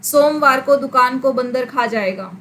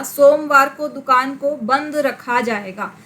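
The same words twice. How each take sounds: First: बंद रखा misread as "बंदर खा"; misread word break. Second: Slow, with बंद and रखा as two clear words; measured reading, clear break between बंद and रखा; बंद and रखा kept separate. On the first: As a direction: join र onto बंद, then say खा apart. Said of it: "बंद और र एक साथ". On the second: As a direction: finish बंद fully before starting रखा. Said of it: "यहाँ पर बंद रखा में से". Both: Shown as a demonstration.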